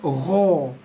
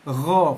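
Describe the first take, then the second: First: The syllable is said with pursed, rounded lips. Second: The syllable is said with relaxed, unrounded lips. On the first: The speaker calls it wrong. "Bukannya ro" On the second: The speaker calls it right. "tapi ro"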